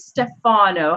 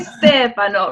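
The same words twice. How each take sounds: First: The name is said an anglicized way. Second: The name is said the Italian way. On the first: The speaker calls it wrong. "I needed to make it more comfortable for me" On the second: The speaker calls it right. "how do you say your name in Italian? ... You say Stefano"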